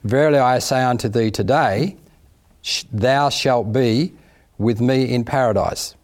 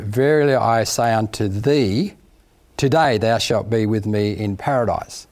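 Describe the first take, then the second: First: The pause comes after the word today. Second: The pause comes before the word today.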